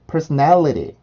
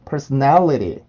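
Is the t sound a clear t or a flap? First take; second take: flap; flap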